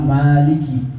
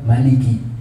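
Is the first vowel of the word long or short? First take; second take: long; short. First: The first vowel is drawn out long. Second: The first vowel is kept short. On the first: This is the reading for the first prayer unit. "yang pertama Maliki, ... dengan panjang" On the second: This is the reading for the second prayer unit. "yang kedua Maliki, ... dibaca pendek"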